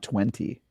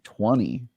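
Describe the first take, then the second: First: The second T sound is clearly pronounced. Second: The second T sound is dropped. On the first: "I pronounce twenty" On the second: "A lot of people in America say twenty. They just don't have the other T"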